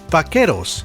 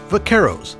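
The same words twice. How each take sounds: First: It is said with a Spanish pronunciation. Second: It is said with an American pronunciation.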